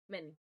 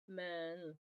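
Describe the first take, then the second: First: The m goes straight into the n. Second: A short schwa sits between m and n. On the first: The speaker calls it right. "I also start to lift my tongue for the N. And it would sound like men" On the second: The speaker calls it wrong. "If I try to make the schwa sound first or in between, it will sound like this"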